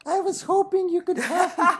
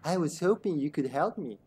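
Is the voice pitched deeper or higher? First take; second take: higher; deeper. First: The voice is pitched higher. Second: The voice is pitched deeper. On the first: The speaker calls it wrong. "No, that's not her voice" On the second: The speaker calls it right. "She has a deeper voice"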